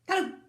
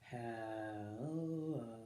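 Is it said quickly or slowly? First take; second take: quickly; slowly. First: It is said very quickly. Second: It is said very slowly.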